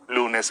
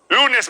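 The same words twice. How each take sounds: First: The words are spoken at a low pitch. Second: The words are spoken at a high pitch. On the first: "Luego en tono bajo"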